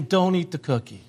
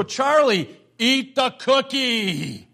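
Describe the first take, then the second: First: Said in the usual way. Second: Slow, drawn-out urging; mock urging. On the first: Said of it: "Paul's saying". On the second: Grandfather wanting to tell his grandson to give in, mock urging. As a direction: stretch the words as if egging a little boy on. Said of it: "I just wanted to go".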